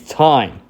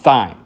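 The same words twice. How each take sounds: First: It begins with a plain t sound. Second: It begins with a th sound. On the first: The speaker calls it right. "It's thyme, like the herb" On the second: The speaker calls it wrong. "not thyme"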